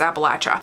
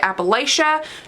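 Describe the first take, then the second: First: The word is said the local way. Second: The word is said the outsider way. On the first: The speaker calls it right. "It's Appalachia" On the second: The speaker calls it wrong. "you're saying it wrong"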